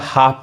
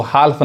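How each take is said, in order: First: "हाफ" with no L sound; silent L. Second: "हाल्फ" with the L sounded; wrong pronunciation. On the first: Teacher modelling for learners, "हाफ" with silent L. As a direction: say "हाफ", long vowel straight into F. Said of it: "अब ये क्या पढ़ाएगा". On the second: Teacher showing what to avoid, "हाल्फ" with sounded L. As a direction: say "हाल्फ", pronouncing L before F. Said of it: "इसको हाल्फ नहीं कहेंगे". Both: Shown as a demonstration.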